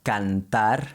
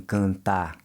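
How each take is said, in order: First: Cantar with the tongue touching for the n, Spanish way; the foreigner's cantar, n fully closed; Spanish-style n. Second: Cantar with a nasal can, tongue not touching; nasal vowel. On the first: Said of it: "pronounce that N like you do in Spanish". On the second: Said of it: "pronouncing it with a nasal sound". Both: Shown as a demonstration.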